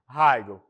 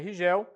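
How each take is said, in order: First: The name is said with English pronunciation. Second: The name is said with Portuguese pronunciation. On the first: "na sua pronúncia em inglês nós podemos falar simplesmente Rigel" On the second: "Se nós falarmos em português é Rigel"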